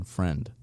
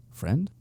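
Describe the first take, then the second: First: Said in the usual way. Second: Friend? con subida de tono interrogativa, más aguda; questioning rise. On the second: A narrator's reading. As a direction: duda sobre la palabra, Friend? en pregunta. Narrator doubts the word friend.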